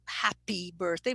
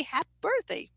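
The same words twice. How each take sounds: First: Said in the usual way. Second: "happy" cut to "happ" in "happy birthday"; hypercorrected ending. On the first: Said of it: "so it's not happy birthday". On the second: Shown as a demonstration. Teacher as overcorrecting student, "happy" without its last vowel. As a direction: drop the final "ee" of "happy" before "birthday". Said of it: "must be happy birthday".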